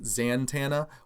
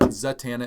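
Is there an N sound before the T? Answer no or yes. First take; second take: yes; no. First: An N sound comes before the T. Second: No N sound comes before the T. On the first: The speaker calls it wrong. "a lot of people pronounce it Zantana" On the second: The speaker calls it right. "there's no N before the T ... Zatanna is the way that I pronounce it"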